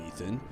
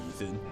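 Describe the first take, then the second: Both takes have the same delivery.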